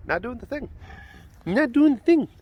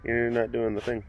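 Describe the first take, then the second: First: Pet talk. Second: Said in the usual way. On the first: Real, not acted. Same words cooed to cat.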